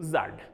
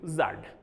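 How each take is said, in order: First: The letter is said the Kashmiri way, zad. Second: The same.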